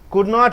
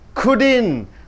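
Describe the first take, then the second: First: Not is said as a full separate word. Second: Not is shortened and joined to could. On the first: "Could not is couldn't" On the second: "Could not is couldn't"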